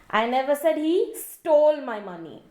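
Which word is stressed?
stole. The stress is on the word stole.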